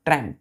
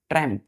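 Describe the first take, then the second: No difference in how they are said.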